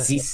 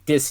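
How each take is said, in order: First: The th is pronounced as a z sound. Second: The th is pronounced as a d sound. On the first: This is how speakers from France say it. "French people from France pronounce the th, they say zis" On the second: This is how French Canadian speakers say it. "French Canadians are is say dis"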